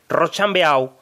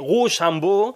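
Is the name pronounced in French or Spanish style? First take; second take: Spanish; French. First: The name is read literally the Spanish way. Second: The name is pronounced the French way. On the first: The speaker sounds ignorant. "pronunciarlo literalmente en castellano" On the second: The speaker sounds overly cultured. "la pronunciación francesa correcta"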